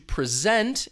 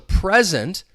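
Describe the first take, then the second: First: The stress is on the second syllable. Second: The stress is on the first syllable. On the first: It is a verb meaning to give or show. "the verb to present, in which case you hear that stress on the second syllable" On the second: It is a noun meaning now or a gift. "the noun, ... stress is on that first syllable"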